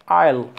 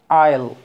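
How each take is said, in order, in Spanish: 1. Se dice como una sola sílaba contraída. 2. Se dice como una sola sílaba contraída.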